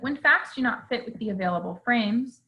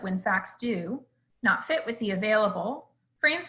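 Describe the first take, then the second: First: The phrase is said without a break inside. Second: A pause breaks up the words do not fit. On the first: The speaker calls it right. "there are other ways that it could be said" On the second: The speaker calls it wrong. "the phrase do not fit is grammatically connected, and so dividing it up ends up sounding confusing"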